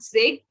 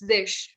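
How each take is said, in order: First: The word ends with a hard g sound. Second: The word ends with a soft sh sound. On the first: The speaker calls it wrong. "it's not Zig" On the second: The speaker calls it right. "it's Zish"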